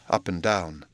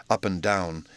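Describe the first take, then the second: No difference in how they are said.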